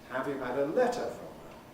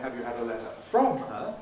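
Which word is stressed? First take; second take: letter; from. First: The main stress falls on letter. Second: The main stress falls on from. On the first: It is the neutral, ordinary question. "the default, the norm is" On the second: It contrasts from with another preposition. "unless we're making a contrast between from and some other preposition"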